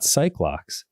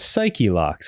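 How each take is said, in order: First: The first word has one syllable. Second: The first word has two syllables. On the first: The speaker calls it wrong. "and not psych locks" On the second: The speaker calls it right. "it's pronounced psyche locks"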